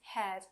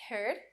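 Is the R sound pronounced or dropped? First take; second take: dropped; pronounced. First: The R sound is dropped. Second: The R sound is pronounced clearly. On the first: "my R's disappear in the middle or end of words" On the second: "you can hear me say every R clearly"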